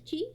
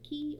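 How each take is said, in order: First: The word starts with a ch sound, like chee. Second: The word starts with k and sounds like key. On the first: "I will be pronouncing as Chi" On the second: "or Ki"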